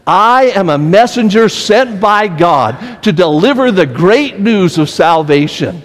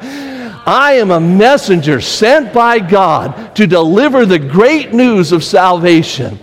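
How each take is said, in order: First: It is said plainly, without much energy. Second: It is said with lively, enthusiastic energy. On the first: "Let's say it together" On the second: "let's do it with some enthusiasm like you're in a speech contest"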